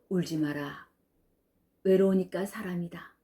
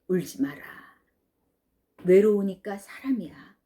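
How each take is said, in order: First: It is read flatly like a poem. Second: It is said warmly, like comforting someone.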